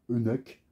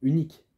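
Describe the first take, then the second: First: "unique" said wrongly, as if in another accent; mispronounced "unique". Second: Said in the usual way. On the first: Shown as a demonstration. Reviewer showing how not to say it, "unique" mispronounced in an accent. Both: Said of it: "je parle pas avec un autre accent".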